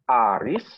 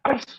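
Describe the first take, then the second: First: It is said with a surprised, questioning tone. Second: It is said sharply with an angry tone. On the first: The speaker is checking whether it is really that person. "Mengkonfirmasi ya, ... kaget mengkonfirmasi ya" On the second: The speaker is angry. "sadis tuh ya, pedes, marah berarti kan"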